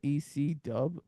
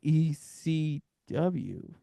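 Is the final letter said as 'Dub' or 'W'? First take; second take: Dub; W. First: The last letter is shortened to 'Dub'. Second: The last letter is said in full as 'W'. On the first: The speaker calls it right. "You just say Dub" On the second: The speaker calls it wrong. "You don't say W"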